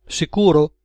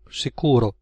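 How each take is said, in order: First: "Sicuro" pitched up, then falling; "Sicuro" higher, seeking confirmation; questioning. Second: Said in the usual way. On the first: A narrator's reading. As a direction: ask "Sicuro" as a raised check. Gunman asks for confirmation.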